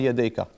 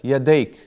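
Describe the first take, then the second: First: The word ends with a short a vowel. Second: The word ends on a bare consonant. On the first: The full written ending is shown. "we want to be sure that you know it's a fatha" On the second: The speaker stops at the end of a verse. "When you end at the ayah, you pronounce it like that"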